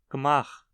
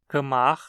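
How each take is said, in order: First: The prefix is a bare consonant without a vowel. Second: The prefix is a full syllable with a vowel.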